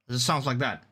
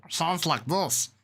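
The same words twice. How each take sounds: First: Said in the usual way. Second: Slow, high alien-critter voice; slow cartoon creature voice, pitched up; Stitch. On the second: Shown as a demonstration. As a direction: talk like a little cartoon alien, drawn out. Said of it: "I can do Stitch".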